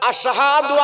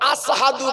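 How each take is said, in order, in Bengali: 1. শব্দটি স্পষ্ট 'sh' ধ্বনি দিয়ে বলা হয়েছে। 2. শব্দটি সাধারণ 's' ধ্বনি দিয়ে বলা হয়েছে। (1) "আমাদের মুয়াজ্জিন আযান দেয়" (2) "আশহাদু বলতে পারতো না, আসহাদু বলতো"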